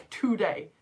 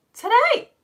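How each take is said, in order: First: Said in the usual way. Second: High, loud, astonished rising question. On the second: Real, not acted. Teacher learning it is a pupil's birthday, astonished. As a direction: shoot the pitch right up in disbelief. Repeats birthday news, escalating disbelief.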